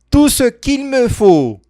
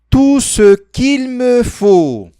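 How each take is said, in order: First: The phrase is said at a very fast speed. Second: The phrase is said at a fast speed. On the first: "Mais rápido" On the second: "Mais rápido ainda"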